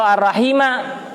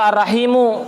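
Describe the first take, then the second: First: The word ends with an a vowel. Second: The word ends with a u vowel. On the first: It is the object of an omitted verb. "dibaca nasab menjadi maf'ul bih" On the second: It is the predicate of an omitted subject. "menjadi khobar dari mubtada yang dibuang"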